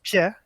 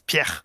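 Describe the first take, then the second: First: The R is soft and barely sounded. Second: The R is harsh and scraped in the throat. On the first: The speaker calls it wrong. "So it's not just Pierre" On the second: The speaker calls it right. "you pronounce the double R"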